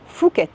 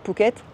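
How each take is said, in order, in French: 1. Le mot commence par un son f. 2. Le mot commence par un son p.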